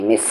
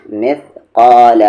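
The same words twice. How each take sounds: First: मिस ending in a plain hissing s; wrong s sound. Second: Slow मिस्काल, स said as th in think; correct tha sound. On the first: Teacher showing what not to do, plain s in मिस. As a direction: say मिस with seen instead of th. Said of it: "ऐसे नहीं". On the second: Teacher showing what to do, th in मिस्काल. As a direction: put tongue to teeth for स in मिस्काल. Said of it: "क्या करना है?". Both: Shown as a demonstration.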